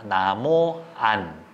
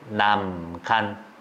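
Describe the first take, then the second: First: The words are said with no g sound. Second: A g sound links into the final syllable.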